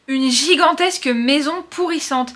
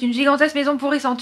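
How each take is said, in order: First: The phrase is said at a normal pace. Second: The phrase is said very fast.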